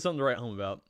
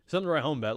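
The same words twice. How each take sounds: First: The voice is lowered and deep. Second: The voice is at its normal pitch.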